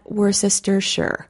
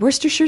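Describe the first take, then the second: First: It is said as spelled, every syllable sounded. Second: It is said in a shortened form. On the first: The speaker calls it wrong. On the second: The speaker calls it right. "is also the correct pronunciation"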